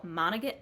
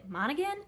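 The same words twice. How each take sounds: First: "Monaghan" said as MON-uh, clipped short; "Monaghan" cut off after two syllables, falling; first try at a name. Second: "Monaghan" as MON-uh-gun, rising like a question; "Monaghan" tried out in full, unsure; unsure pronunciation. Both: Real, not acted.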